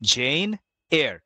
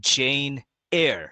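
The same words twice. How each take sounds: First: The surname is said like 'air'. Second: The surname is said like 'air'.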